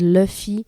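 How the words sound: The name is pronounced the English way. "ils disent Luffy en anglais"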